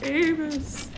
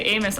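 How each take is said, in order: First: It is said imitating the Disney mouse Amos. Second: It is said in the speaker's normal voice.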